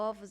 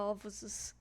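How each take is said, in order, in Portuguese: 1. É dita com a voz normal do falante. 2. É dita com uma voz de criatura fingida. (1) "ele não fala ovos" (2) "ele fala ovos"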